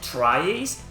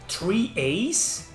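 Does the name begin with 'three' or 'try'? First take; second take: try; three. First: The name begins with the sound try. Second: The name begins with the word three. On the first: The speaker calls it wrong. "not tri-A's" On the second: The speaker calls it right. "I think it's actually pronounced three A's"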